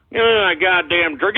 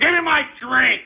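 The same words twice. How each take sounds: First: Said in the usual way. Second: High, insistent outburst; exasperated demand. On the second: Real, not acted. Host calling for his drink, exasperated. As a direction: demand it at a higher pitch.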